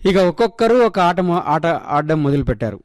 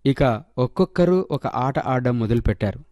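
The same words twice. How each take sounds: First: Stumbled read. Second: Said in the usual way. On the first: Real, not acted. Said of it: "re-read of the same sentence". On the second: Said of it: "re-read".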